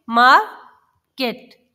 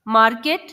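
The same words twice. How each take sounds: First: market broken in two, मार, long pause, केट; split into syllables. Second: Said in the usual way. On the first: Shown as a demonstration. Teacher showing children two syllables, market split by a pause. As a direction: say market as two slow, separate beats. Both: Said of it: "दो अलग-अलग sounds को".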